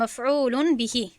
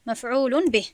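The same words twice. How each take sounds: First: مفعول به said slowly and carefully as maf'ulun bihi; slow Arabic term. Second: Said in the usual way. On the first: Shown as a demonstration. Teacher spelling out the term for the class, slow and careful.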